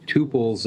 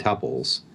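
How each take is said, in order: First: "tuples" as TOO-pulls; long-u pronunciation. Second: "tuples" as TUP-pulls; short-u pronunciation. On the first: Podcaster citing both pronunciations, "tuples" as TOO-pulls. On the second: Podcaster citing both pronunciations, "tuples" as TUP-pulls. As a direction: say "tuples" to rhyme with supples. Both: Shown as a demonstration. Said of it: "I've heard it pronounced both".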